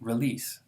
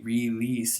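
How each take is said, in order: First: It is said fast with a reduced first vowel. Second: It is said slowly with a full first vowel. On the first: "if I say it fast" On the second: "if it's careful pronunciation"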